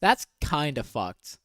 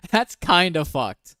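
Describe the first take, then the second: First: Said in the usual way. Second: Slow, louder, laughing through it; laughing repeat. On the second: Real, not acted. Repeating her verdict to viewers, laughing. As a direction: laugh it out in disbelief.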